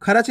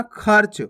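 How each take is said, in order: First: खर्च split as "kha-rach"; wrong full "ra". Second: खर्च as one syllable, "kharch"; half "r" in खर्च. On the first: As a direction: put a full vowel after r in खर्च, "kharach". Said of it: "नहीं पढ़ना". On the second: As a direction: join r straight to ch in खर्च. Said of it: "खर्च नहीं पढ़ना". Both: Shown as a demonstration.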